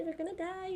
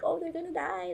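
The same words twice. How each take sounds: First: Softer, dread sinking in over "die"; hushed mock dread. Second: Mock panic, pitched high, as if dreading it; a pretend worried thought. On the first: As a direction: whisper the worry to yourself. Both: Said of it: "every episode I always think".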